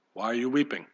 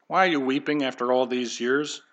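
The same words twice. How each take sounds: First: Soft and tender, voice lowered; hushed, tender ask; tender question. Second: Said in the usual way. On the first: Acted. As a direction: ask it gently, like comforting a mourner. Jesus gently asking, softly quoted.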